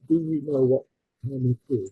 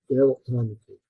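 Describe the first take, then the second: First: Each word is said separately and carefully. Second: The words are run together and compressed.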